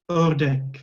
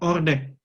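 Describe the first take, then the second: First: The first vowel is tense and strongly lip-rounded. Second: The first vowel is a plain 'o'. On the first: The speaker calls it right. "tapi ordek" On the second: The speaker calls it wrong. "bukan ordek"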